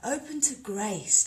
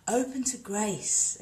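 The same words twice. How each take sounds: First: Slow, slightly higher Open to grace; calm intoning. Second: Slow, calm intoning of Open to grace. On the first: Leading viewers through the principle again, slow and gentle. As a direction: repeat Open to grace slowly with gentle lift. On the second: Teaching viewers a yoga principle, slow and calm. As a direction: draw out Open to grace slowly and gently. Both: Shown as a demonstration. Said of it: "first principle of Anusara".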